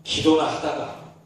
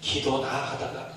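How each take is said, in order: First: Slow, low 기도나 하다가 with weight on 기도나; resigned stress on 기도나. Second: Slow, softer 기도나 하다가 with 기도나 stressed; quieter stress on 기도나. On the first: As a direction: lean on 기도나, let 하다가 sink. (기도나를 힘주어 느리게) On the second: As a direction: repeat it softly, lingering on 기도나. (기도나를 조용히 강조) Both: Shown as a demonstration. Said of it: "그 목사님 말 그 본세를 보세요".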